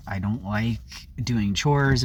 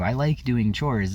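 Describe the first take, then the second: First: Said in the usual way. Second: Like pressed firmly, slowly, in contradiction; stress on like. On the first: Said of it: "I was thinking, like". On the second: Real, not acted. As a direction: insist on the word like. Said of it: "which isn't true".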